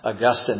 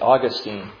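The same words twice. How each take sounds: First: Pronounced the way the early saint's name is. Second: Pronounced the way the Florida city's name is. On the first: It names the early church father. "Augustine is in heaven" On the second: It names the city in Florida. "St. Augustine is in Florida"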